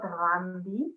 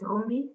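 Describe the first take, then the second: First: The first vowel sounds like 'ah'. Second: The first vowel sounds like 'oo'. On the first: The speaker calls it wrong. "not Rambi, like you said" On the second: The speaker calls it right. "In short, it's Rumbi"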